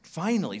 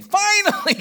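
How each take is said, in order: First: Said in the usual way. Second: Finally, cried out high and loud; preacher bursting out with finally, loud and high; high rising shout. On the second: Acted. Preacher crying out to the congregation, loud and high.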